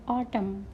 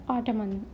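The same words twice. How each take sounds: First: Autumn ending on M, silent N; correct silent-letter pronunciation. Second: Autumn with the final N sounded, as "ottoman"; wrong pronunciation demo. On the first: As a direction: say "autumn" with no n at the end. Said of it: "N is silent here". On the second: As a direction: add an extra n syllable, "ottoman". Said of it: "Not ottoman". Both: Shown as a demonstration.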